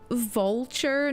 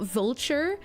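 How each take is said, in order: First: The first syllable sounds like the start of 'volcano'. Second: The first syllable sounds like the ordinary 'vulture'. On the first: The speaker calls it right. "It's because of the volcano" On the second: The speaker calls it wrong. "not vulture?"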